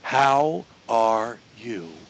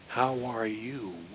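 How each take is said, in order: First: Each word is said separately, without linking. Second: The words run together like one word. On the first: "I didn't link anything" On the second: "I said it as if it's one word"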